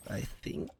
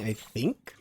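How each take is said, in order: First: Breathy whisper of I think; whispered aside to himself while driving. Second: Said in the usual way. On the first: Real, not acted. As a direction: drop to a whisper, musing to himself. Repeats it under his breath.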